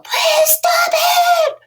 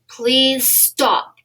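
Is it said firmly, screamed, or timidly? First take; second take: screamed; firmly. First: It is screamed very loudly and angrily. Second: It is said in a strong, firm voice.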